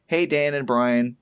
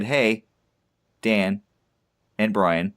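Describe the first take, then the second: First: Said in the usual way. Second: Hey, Dan, and Brian with a pause after each comma; reading with pauses at the commas. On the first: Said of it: "Actually, he said". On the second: Shown as a demonstration. Reading a listener's message, pausing at each comma. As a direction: pause at every comma as the transcript shows. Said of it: "'cause there are commas in there, so I inserted pauses".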